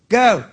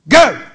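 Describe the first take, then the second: First: It is said softly, with little air. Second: It is said with strong, intense force. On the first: It comes only from the mouth. "Out of your mouth, Is just air" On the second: It comes from the spirit and carries faith. "That wasn't just volume. That is the power of the spirit"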